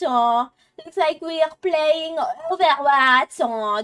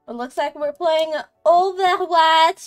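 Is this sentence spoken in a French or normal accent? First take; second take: French; normal. First: It is spoken in a put-on French accent. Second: It is spoken in the speaker's normal accent.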